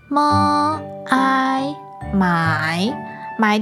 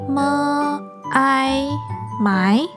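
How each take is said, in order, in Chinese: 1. 音高先降到低，然后上升。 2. 音高从中升到高。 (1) "那我来拼拼看3 声" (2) "那你试试看二声呢？"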